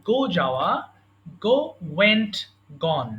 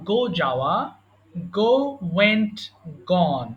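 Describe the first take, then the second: Both takes have the same delivery.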